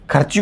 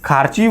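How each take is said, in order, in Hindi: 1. पहला स्वर छोटा है। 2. पहला स्वर लंबा है।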